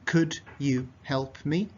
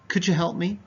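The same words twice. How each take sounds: First: The D and Y are said as separate sounds. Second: The D and Y merge into a J sound. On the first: The speaker calls it wrong. "Doesn't sound natural" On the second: The speaker calls it right. "Is better"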